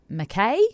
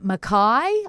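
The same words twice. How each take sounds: First: The name is said the way it is spelled. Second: The name is not said the way it is spelled. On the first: This follows the spelling. The speaker calls it wrong. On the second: This is how locals say it. The speaker calls it right.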